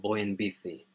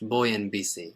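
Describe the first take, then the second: First: It is said with a Spain Spanish accent. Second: It is said with a non-Spain Spanish accent.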